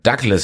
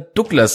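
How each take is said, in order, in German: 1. Es wird wie der normale Vorname ausgesprochen. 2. Es wird wie der Markenname ausgesprochen. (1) "Ist natürlich Douglas Stahl" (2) "warum ich immer Douglas sage. Da hat mich die Werbung versaut"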